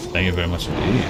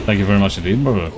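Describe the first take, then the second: First: Lower, softer, put-on formal voice; mock posh thanks. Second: Said in the usual way. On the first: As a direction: say it like a stuffy gentleman. Repeat, posher and lower.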